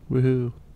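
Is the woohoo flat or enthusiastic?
flat. It is said flatly, without enthusiasm.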